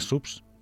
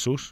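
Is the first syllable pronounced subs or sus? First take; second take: subs; sus. First: The first syllable is said with a b sound. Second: The first syllable is said without a b sound. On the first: This is the Catalan pronunciation. "en català subs" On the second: This is the Spanish pronunciation. "En castellà és sus"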